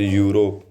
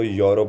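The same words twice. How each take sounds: First: यूरोप opening with "yoo", as yoo-ro; first reading. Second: यूरोप opening with "yo", as yo-rop; alternative reading. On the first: Teacher reads out the example word, यूरोप begun with yoo. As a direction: say यूरोप with a long oo at the start. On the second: Teacher allows for another accent, यूरोप begun with yo. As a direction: say यूरोप with o in place of oo. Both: Shown as a demonstration. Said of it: "कहीं कहीं इसको यूरोप भी पढ़ा जाता है".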